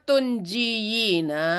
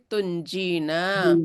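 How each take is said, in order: First: The word has four syllables with a y sound. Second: The word has three syllables without a y sound. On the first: This is the underlying form before the change. "Prosesnya tunjiyina" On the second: This is the final form actually used. "menjadi tunjina"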